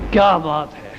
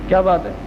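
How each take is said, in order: First: It sounds like warm praise. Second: It sounds like a genuine question.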